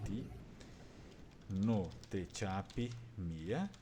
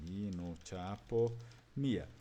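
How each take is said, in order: First: Ti no te chapi mia said slowly, rise on mia; slow Talian model. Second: Mi no chapo mia said slowly, mia stressed on the i; slow Talian model. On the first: Teacher repeats student answer, slow model of Ti no te chapi mia. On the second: Teacher to class, slow model of Mi no chapo mia. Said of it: "Se atentem, né?". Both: Shown as a demonstration.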